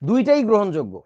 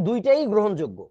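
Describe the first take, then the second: No difference in how they are said.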